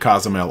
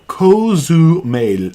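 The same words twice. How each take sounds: First: The vowels sound English. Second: The vowels sound Spanish. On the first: The speaker calls it wrong. "I've said Cozumel all my life like an idiot" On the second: The speaker calls it right. "get those Spanish vowels in there"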